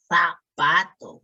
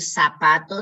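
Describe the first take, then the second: First: Zapato with a lisped th, "thapato"; Spanish z. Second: Said in the usual way. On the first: Shown as a demonstration. Teacher to class showing the z sound: zapato with th. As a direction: say the z in zapato as th, like in Spain. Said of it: "debemos de decir za". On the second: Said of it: "en vez de decir ... debemos de decir".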